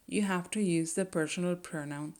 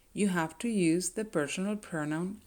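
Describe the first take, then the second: No difference in how they are said.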